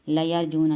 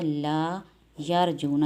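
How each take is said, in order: First: The 'la' runs straight into the next word. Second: The 'la' is held apart before the next word. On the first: Surely they hope. The speaker calls it wrong. "लयरजूना नहीं होगा" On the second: They do not hope. The speaker calls it right. "इसको अकेला पढ़ के फिर अगले लफ्ज़ को पढ़ना है"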